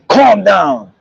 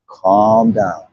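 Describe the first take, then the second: First: It is said in a tense, agitated way. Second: It is said in a relaxed, calm way.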